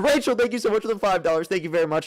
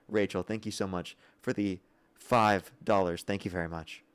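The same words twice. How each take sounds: First: It is shouted in an exaggerated, loud way. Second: It is said at a normal, calmer volume.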